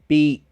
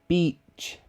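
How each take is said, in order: First: The final stop is made in the throat. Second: The final stop is made by the tongue. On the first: The speaker calls it right. "It's my airflow stops in my throat" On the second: The speaker calls it wrong. "the end I will stop like this"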